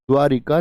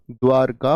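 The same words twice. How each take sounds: First: द्वारिका with an i after r; wrong pronunciation. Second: द्वारका with r straight into k; correct pronunciation. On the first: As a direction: say द्वारिका as dvaa-ri-kaa. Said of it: "नहीं होता". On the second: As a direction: say द्वारका as dvaar-kaa. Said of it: "होता है". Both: Shown as a demonstration.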